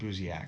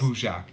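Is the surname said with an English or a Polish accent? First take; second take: English; Polish. First: The surname is said with an English accent. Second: The surname is said with a Polish accent.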